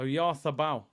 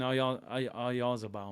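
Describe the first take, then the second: First: The middle consonant is a soft 'th' sound. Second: The middle consonant is a buzzing 'z' sound. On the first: It follows the name's native pronunciation. "The Z is pronounced th" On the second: It follows the English way of reading the name. "but I'm in England"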